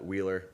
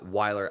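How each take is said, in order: First: The name sounds like the word wheeler. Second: The name sounds like the end of Rottweiler. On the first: The speaker calls it wrong. "A lot of people say uh" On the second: The speaker calls it right. "as in the the dog Rottweiler"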